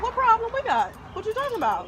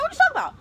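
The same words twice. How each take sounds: First: Higher, disbelieving what-are-you-saying; indignant. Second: Much higher and louder, incredulous squawk; outraged. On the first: Retelling the seller's email, outraged and disbelieving. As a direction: throw back the question in outrage. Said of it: "And I'm like". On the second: Repeating her reaction for the friend, shrill disbelief. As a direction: push the disbelief to the top. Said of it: "I'm like". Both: Retold or imitated.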